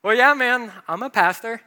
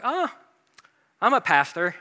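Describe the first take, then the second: First: Louder and higher, owning it boldly; confident declaration. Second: Sheepish, trailing admission; hesitant admission. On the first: Pastor confirming his job to a surprised gym friend, loud and bold. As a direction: say it proudly, no hiding now. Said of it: "I was like". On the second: Pastor admitting his job to a gym friend, hesitantly. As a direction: own up to it a bit unsure. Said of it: "basically I'm just like". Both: Retold or imitated.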